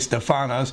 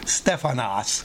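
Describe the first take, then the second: First: The stress falls on a later syllable. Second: The stress falls on the first syllable. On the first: The speaker calls it wrong. "I always say stephanos" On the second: The speaker calls it right. "the actual Greek accent is on the first E. It would be stephanos"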